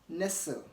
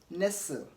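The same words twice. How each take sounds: Both takes have the same delivery.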